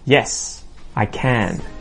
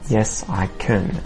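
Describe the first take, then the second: First: The word 'can' has a full, clear vowel. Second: The word 'can' has a weak, reduced vowel. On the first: The speaker calls it right. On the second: The speaker calls it wrong. "Not yes, I can"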